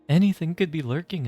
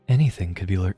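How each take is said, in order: First: The voice is plain, not husky or seductive. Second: The voice is husky and sounds seductive.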